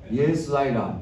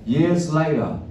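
No difference in how they are said.

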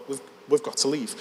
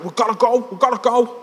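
First: Said in the usual way. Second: Put-on high, hurried-sounding Scouse accent; urgent Scouse. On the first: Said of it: "Which means". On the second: Lad pulling his mate away, high urgent Scouse. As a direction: urge him away in Scouse. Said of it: "give you a glimpse of the scouse".

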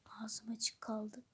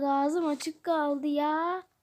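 First: Slow, amazed whisper; hushed, slowed-down gasp of amazement; awed whisper. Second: "ağzım açık kaldı" stretched out slowly at normal volume; dragged-out, marveling "ağzım açık kaldı ya"; slow amazement. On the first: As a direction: breathe it out in awe. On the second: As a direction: draw out "kaldı" with a rising tone. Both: Acted. Amazed at toys.

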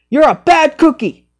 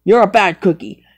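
First: Higher, put-on scolding; scolding character voice. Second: Said in the usual way. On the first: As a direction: scold it in a squeaky voice. Repeated scolding, other voice.

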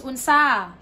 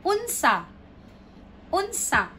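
First: "unsa" with loud, drawn-out SA; un-SA, weight on the end of "unsa"; wrong final stress. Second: "Unsa" with high UN, falling sa; correct first-syllable stress. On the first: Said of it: "it will be wrong". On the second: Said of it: "No, it's wrong". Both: Shown as a demonstration.

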